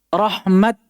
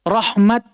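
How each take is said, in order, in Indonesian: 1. Kata itu berakhir dengan bunyi t. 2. Kata itu berakhir dengan bunyi t.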